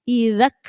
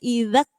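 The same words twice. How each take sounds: Both takes have the same delivery.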